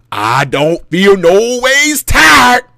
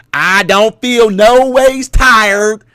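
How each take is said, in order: First: Very slow, loud drawn-out sermon line; mock church shout. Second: Mock Hillary preaching. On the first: Calling out to church people, slow and loud. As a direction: belt it like preaching to church. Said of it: "Guess what, church people?". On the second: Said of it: "when Hillary Clinton said that".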